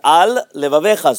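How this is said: A very small pause separates the two words. Both words are heard as separate words. The speaker calls it right. "so you have to make a very small pause"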